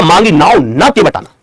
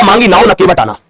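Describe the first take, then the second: First: मांगी नाव न together, then के बटाना; slow down and lean on न before the break; न stressed, closing the first phrase; pause after न. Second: मांगी नाव, then न के बटाना as one phrase; group न with के बटाना; brisk first reading, न leading the second phrase; break after नाव. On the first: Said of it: "दूसरे number साथियों क्या लिखा". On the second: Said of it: "पहले नंबर लिखा". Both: Shown as a demonstration.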